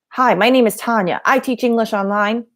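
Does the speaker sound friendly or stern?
stern. The voice sounds stern and aggressive. The speaker is nervous and seems hostile. The speaker calls it wrong. "If you're nervous and your face is stern... That is aggressive"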